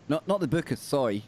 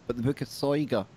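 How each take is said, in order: First: "Soy" said as one syllable, soy; the wrong short form "Soy", just soy; wrong name. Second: "Soiga" said as two syllables, SOY-guh; the full name "Soiga", stress on SOY; correct name. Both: Shown as a demonstration.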